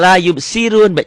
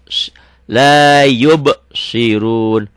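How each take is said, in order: First: The s is the light plain sin sound. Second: The s is the heavy emphatic sad sound. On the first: The speaker calls it wrong. "dengan sin. Salah, artinya akan salah" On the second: The speaker calls it right.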